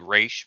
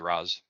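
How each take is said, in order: First: The name ends with a 'sh' sound. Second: The name ends with a 'z' sound. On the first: This is how the creator pronounced it. "I know that Denny O'Neil said Raish" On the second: This is how the speaker personally says it. "but I say Raz"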